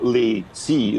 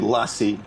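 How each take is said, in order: First: It sounds like two separate words, 'lay see'. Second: It sounds like one word, like 'lassie'. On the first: This is how it is said in America. "in America they sort of go lay see as if it was two different words" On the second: This is how it is said in France. "here in France we say lassie like the dog"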